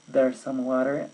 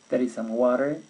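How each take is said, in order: First: 'There is' is contracted into one syllable. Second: 'There is' is said as two full words.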